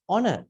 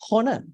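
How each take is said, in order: First: The initial h sound is silent. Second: The initial h sound is pronounced. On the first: The speaker calls it right. "it's honor" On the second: The speaker calls it wrong. "It's not honor"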